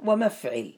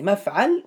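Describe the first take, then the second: First: ومفعل said "wa-mafʕil", with an i after the ayn; kasra on the ayn. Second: مفعل said "mafʕal", with an a after the ayn; fatha on the ayn. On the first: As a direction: close second vowel in ومفعل, "maf-ʕil". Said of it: "مفعل بفتح العين". (ومفعل بكسر العين: وَمَفْعِل) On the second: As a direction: open second vowel in مفعل, "maf-ʕal". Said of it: "أو مفعل". (مفعل بفتح العين: مَفْعَل) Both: Shown as a demonstration.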